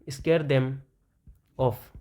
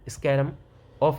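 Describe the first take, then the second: First: The word 'them' is said in full. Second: The word 'them' is reduced to 'em'.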